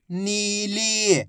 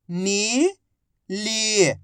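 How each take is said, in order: First: नीली joined, both vowels drawn out; blended word. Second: नीली split as नी, long pause, ली; syllable by syllable. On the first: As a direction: blend नी and ली into नीली without a gap. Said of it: "आपस में मिला के पढ़ दो". (नीली को मिलाकर बोलें) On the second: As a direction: sound out नीली slowly, नी rising, ली falling. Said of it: "एक अक्षर की पहचान करो, उनका उच्चारण करो". (नीली को अक्षर-अक्षर अलग बोलें) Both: Shown as a demonstration.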